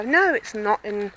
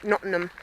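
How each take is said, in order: First: Nottingham with every syllable out, full "ham" ending; mock correction, pulling Nottingham apart as Notting-HAM; corrective pronunciation. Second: Nottingham squashed to "Nottnum"; southern pronunciation. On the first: People correcting her accent, imitated emphatic Notting-HAM. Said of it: "and people go". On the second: Shown as a demonstration. Vlogger showing her southern accent, Nottingham run together. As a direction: swallow the middle and end of Nottingham. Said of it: "I pronounce it Nottingham".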